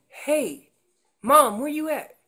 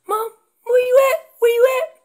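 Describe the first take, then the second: First: Slightly raised, lightly voiced youngster's call; calf calling Mom. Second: Put-on very high, loud anxious-kid holler; strayed calf calling. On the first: Calf checking on Mom nearby, mild raised call. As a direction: check in with Mom, a little high and loud. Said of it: "that's that calf saying". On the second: Calf too far from Mom, high urgent shouting. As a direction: cry out for Mom from far away. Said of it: "calf ventured way away from Mom".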